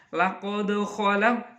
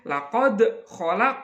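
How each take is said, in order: First: The final consonants bounce lightly. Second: The final consonants bounce heavily. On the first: The speaker calls it right. "Jadi mantulnya ringan saja" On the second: The speaker calls it wrong. "tidak boleh dibaca mantul yang begitu berat"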